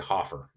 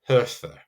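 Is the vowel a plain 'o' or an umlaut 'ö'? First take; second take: plain; umlaut. First: The vowel is a plain o sound. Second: The vowel is the rounded umlaut ö sound. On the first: This is the usual English pronunciation. "we just kind of say Hofer" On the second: This is the German pronunciation. "that technical pronunciation of Höfer"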